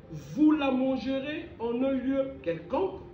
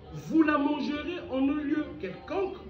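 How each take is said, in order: The two takes are said the same way.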